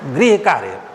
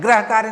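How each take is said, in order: First: The first word is said with a 'ri' sound. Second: The first word is said with an 'ra' sound. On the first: The speaker calls it right. "वो है गृह कार्य। गृह कार्य शुद्ध होगा" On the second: The speaker calls it wrong. "ग्रह कार्य नहीं है"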